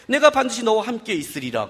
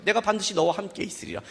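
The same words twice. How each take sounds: First: Said in the usual way. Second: Same words, dropped to a hush; softer repeat of God's promise. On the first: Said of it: "하나님이 이르되". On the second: Shown as a demonstration. Pastor repeating God's promise softly to the congregation. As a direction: let it settle quietly this time. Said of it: "그래요".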